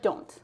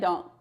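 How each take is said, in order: First: The final T is clearly pronounced. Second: The final T is dropped. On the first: "pronounce your T's like so well" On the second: "most people just say don't"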